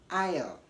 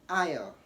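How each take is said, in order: The two takes are said the same way.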